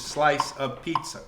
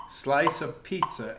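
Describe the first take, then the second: First: Said in the usual way. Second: "slice" leaned on, phrase said slowly; slow "slice of pizza" with weight on "slice"; accent on slice. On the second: Shown as a demonstration. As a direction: stress the first word "slice" in a swung rhythm. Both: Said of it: "that little natural accent on slice".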